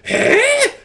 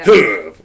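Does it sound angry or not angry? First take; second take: not angry; angry. First: It sounds questioning, not angry. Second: It sounds angry.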